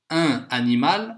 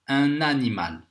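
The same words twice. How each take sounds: First: The N is not linked to the vowel. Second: The N is linked to the following vowel. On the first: The speaker calls it wrong. "on ne va pas dire ça" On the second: The speaker calls it right. "On va faire la liaison. Le N avec le A"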